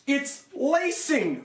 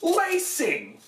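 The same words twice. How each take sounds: First: High, slow, disgusted drawn-out lacing; frustrated. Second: Lacing! flung out high and sharp; exasperated outburst. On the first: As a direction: groan over the cheap lacing. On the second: Reviewer repeating the word in disbelief at the maker, exasperated. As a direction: throw up your hands at the word Lacing!. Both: Real, not acted. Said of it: "this is really frustrating".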